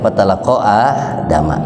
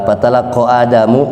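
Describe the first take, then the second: First: The name ends with an 'a' vowel. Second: The name ends with an 'u' vowel. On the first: The words come to Adam. "kalau dibaca Adama ... nanti Adama jadi maf'ul" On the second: Adam is the one who receives the words. "Kalau dibaca Adamu, Adam jadi fa'il"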